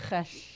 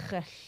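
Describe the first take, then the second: The two takes are said the same way.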